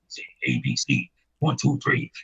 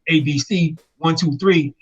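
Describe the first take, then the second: First: It is said in a raw, deep voice. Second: It is said in a plain, ordinary voice.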